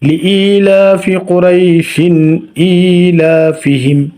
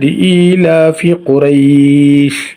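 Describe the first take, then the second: First: It flows on with Qurayshin into the next word. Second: It stops after a clipped final word, Quraysh. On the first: "যখন থামবো না তখন পড়বে পড়তে হবে" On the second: "এখানে যখন আমরা থামবো তখন এটা হবে লিইলাফি কুরাইশ"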